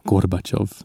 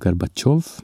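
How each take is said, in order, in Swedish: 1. Betoningen är på första stavelsen. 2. Betoningen är på sista stavelsen. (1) "när man felbetonar och säger Gorbatjov" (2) "betonas ju kanske Gorbatjov"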